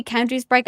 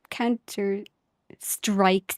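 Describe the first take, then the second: First: "Counter-Strike" slipped into "Counter-Sprike"; slip of the tongue. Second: "Counter-Strike" very slowly, with a clear str-; careful self-correction. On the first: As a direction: say "Counter-Strike" with spr- instead of str-: "Sprike". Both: Real, not acted. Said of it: "did I just say Counter-Strike?".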